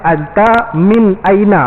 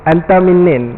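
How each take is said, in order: First: Each word is said separately and in full. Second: The last words run together as one word. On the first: It is the standard form. "maksud dia anta min aina" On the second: It is casual street speech. "Anta minnin ni bahasa pasar"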